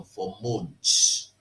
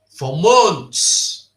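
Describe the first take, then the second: First: Said in the usual way. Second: MONTHS hit loud and higher; loud, indignant stress on MONTHS; emphatic repeat. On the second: Real, not acted. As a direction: punch out MONTHS in outrage.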